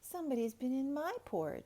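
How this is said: It is said in a medium-sized bear voice.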